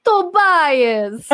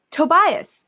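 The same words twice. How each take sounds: First: Long, high, booming cry of the name; hammed-up greeting call. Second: Raised, loud cry of the name; unreal mother's greeting. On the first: Mother greeting Tobias, wildly hammed-up call. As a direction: belt it out in an exaggerated put-on voice. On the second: Acted. Mother greeting Tobias, half-committed loud call. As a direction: call it out high, not fully committed. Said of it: "that wasn't real".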